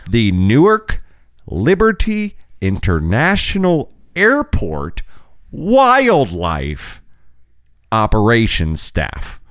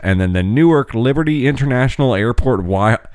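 First: It is said slowly. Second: It is said at normal speed.

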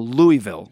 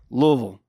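First: Each syllable is said fully, as spelled. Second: It is said with a relaxed jaw, syllables slurred. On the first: It is read as it looks on the map. The speaker calls it wrong. "everyone sees it on the map and you go" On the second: It is how locals say it. The speaker calls it right. "you have to just relax the jaw and say"

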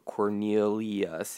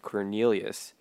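First: The name is drawn out, syllable by syllable. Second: The name is said at its normal length. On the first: The name is stretched to fit a rhyme. The speaker calls it wrong. "He stretched it out to Cornelius" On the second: The name is said the way it is usually spoken. The speaker calls it right. "instead of Cornelius"

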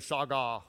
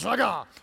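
First: It is said flatly, without attitude. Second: It is said forcefully, with attitude.

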